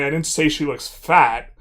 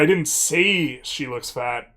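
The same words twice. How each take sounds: First: The word "fat" carries the main stress. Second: The word "say" carries the main stress. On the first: Something else was said about her appearance. "but I said something else about how she looks" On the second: The speaker thought it but did not voice it. "means I didn't say it, but I thought it"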